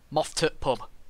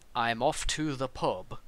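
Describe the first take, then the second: First: The sentence is squeezed into three quick syllables. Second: The sentence is said in full, standard form. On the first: "it's only allowed to be three syllables" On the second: "If you say to someone"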